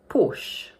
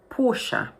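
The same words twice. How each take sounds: First: The word is said with one syllable. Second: The word is said with two syllables. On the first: This is how it is said in English. "in English, we pronounce it as one syllable only" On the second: This is how it is said in the original language. "In the original language, it's pronounced with two syllables"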